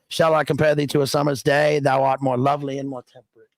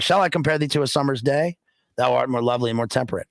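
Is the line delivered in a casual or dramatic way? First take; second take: casual; dramatic. First: It is delivered in a casual, offhand way. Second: It is delivered in a full, dramatic way. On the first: "if I throw away the line" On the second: "instead of saying"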